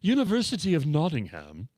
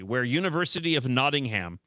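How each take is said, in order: First: It is said in a put-on posh voice. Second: It is said in his ordinary plain voice.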